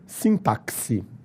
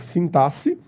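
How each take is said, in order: First: The x is pronounced as a ks sound. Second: The x is pronounced as a plain s sound. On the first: "ou com o som de quis" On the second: "pode ser lido com o som de C"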